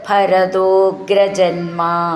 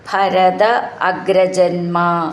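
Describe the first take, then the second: First: The words are joined into one continuous form. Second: The words are said separately, not joined.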